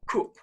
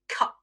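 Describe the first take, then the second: First: The vowel is a long oo sound. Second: The vowel is a short u sound. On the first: "In the north of England, these words are pronounced with a long oo sound" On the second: "In the south of England, words like cup ... are pronounced with the short U sound"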